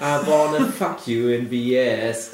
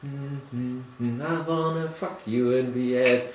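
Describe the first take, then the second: First: Radio song quote. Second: Slow, drawn-out sing-along lyric; slow nodding groove. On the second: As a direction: bob along, slowly. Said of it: "so langsam fangen die an mit Nicken". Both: Retold or imitated.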